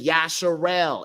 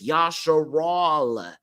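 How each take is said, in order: First: The last syllable sounds like 'el'. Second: The last syllable sounds like 'al'. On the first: The speaker calls it wrong. "This is why I don't say Yasharel" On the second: The speaker calls it right. "It's Yasharal"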